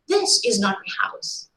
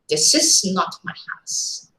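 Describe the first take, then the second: First: The stress falls on the word this. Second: The stress falls on the word not. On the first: The speaker's house is a different one. "the hidden meaning is my house is something somewhere else" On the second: Ownership of the house is flatly denied. "You are categorically stating, denying ownership"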